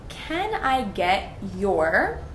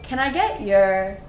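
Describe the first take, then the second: First: The phrase is said slowly with separate words. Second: The phrase is said quickly with blended words.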